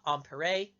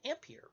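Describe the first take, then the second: First: The name is said with French pronunciation. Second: The name is said with English pronunciation. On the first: The speaker calls it right. "a French physicist by the name of" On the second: The speaker calls it wrong. "whose name you've probably heard mispronounced"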